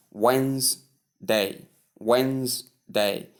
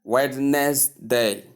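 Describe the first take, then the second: First: "Wednesday" as two separated syllables, WENZ-day; silent D. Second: "Wednesday" in three slow parts, WED-NES-DAY; mispronunciation. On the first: Teacher modelling the word for learners, silent D. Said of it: "the D is silent". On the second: Teacher showing learners the common error, mispronunciation. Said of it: "often mispronounced as". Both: Shown as a demonstration.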